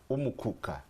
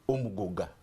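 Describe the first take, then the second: First: The word is said with k sounds. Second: The word is said with g sounds. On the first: This is the form used in Bududa and Manafa. "it's called Umukuka. That is for Bududa, Manafa" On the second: This is the form used by the Budadi side. "when we cross, the pronunciation changes to Umuguga"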